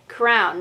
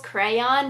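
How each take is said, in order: First: The word is said as one syllable. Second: The word is said as two syllables. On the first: "I said it crown" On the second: "the two syllables crayon"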